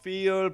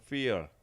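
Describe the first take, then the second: First: The first sound is made without teeth on lip. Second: The first sound is made with teeth on lip. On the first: The speaker calls it wrong. "feel이 아니고" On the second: The speaker calls it right. "feel 이렇게 하시면 되겠습니다. 아래 윗니를 아래 밑을 대야 되겠습니다"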